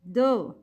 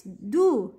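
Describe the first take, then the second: First: "do" opened into "doh"; incomplete dhamma. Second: "do" as a rounded "doo"; full dhamma. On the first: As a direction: say "do" with an oh vowel. ("do" like doh, short of oo) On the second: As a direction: complete "do" with a pure oo. ("do" with the full u vowel) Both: Shown as a demonstration.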